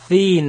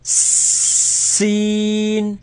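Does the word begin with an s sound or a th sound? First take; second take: th; s. First: The word begins with a th sound. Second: The word begins with an s sound. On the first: The speaker calls it wrong. "Don't say thin like a like the fa" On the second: The speaker calls it right. "but seen"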